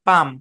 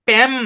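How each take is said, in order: First: The vowel sounds like the one in father. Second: The vowel sounds like the one in cat. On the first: The speaker calls it right. "এলটা silent, পাম" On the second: The speaker calls it wrong. "প্যাম না"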